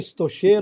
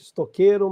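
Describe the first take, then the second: First: The middle consonant sounds like 'sh'. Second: The middle consonant sounds like 'k'. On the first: This is how the spelling would be read. "a leitura é estocheiro" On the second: This is how the name is actually pronounced. "a pronúncia é estoqueiro"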